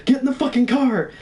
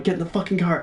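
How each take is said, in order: First: High-pitched urgent mock scream; re-enacted frantic yell, pitched way up; retold screaming. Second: Mild mock yell, slightly raised pitch; half-voiced imitation of screaming; retold scream, restrained. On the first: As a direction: shriek the order, acting out panic. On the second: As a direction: urge it without really shouting. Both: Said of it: "I keep screaming at Mike".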